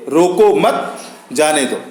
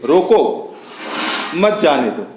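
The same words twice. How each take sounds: First: "रोको मत" run together, pause, then "जाने दो"; pause after मत. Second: "रोको" on its own, pause, then "मत जाने दो" as one phrase; pause after रोको. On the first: Teacher showing how a comma changes meaning, pause after "मत". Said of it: "अर्थ बदल सकते हैं". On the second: Teacher demonstrating a comma's short stop, pause after "रोको". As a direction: break right after "रोको", let "मत जाने दो" fall. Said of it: "जहां थोड़े समय के लिए". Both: Shown as a demonstration.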